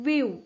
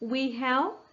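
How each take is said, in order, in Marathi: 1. ते एका आकुंचित अक्षरासारखे म्हटले जाते. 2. ते दोन वेगळे पूर्ण शब्द म्हणून म्हटले जाते.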